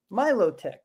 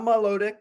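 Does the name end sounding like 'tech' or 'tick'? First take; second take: tech; tick. First: The name ends with a 'tech' sound. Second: The name ends with a 'tick' sound. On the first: The speaker calls it right. "My low tech" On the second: The speaker calls it wrong.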